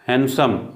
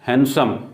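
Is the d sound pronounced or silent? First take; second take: silent; silent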